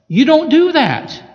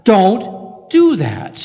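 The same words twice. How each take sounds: First: "do" punched high and loud in "You don't do that"; emphatic rebuke. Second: Slow, weighty warning with the stress on "do"; God's warning. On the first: Real, not acted. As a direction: hit "do" hard, higher and louder. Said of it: "You are to be perfect". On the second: Retold or imitated. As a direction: lean on "do" in "Don't do that", very slow and grave. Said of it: "and God said".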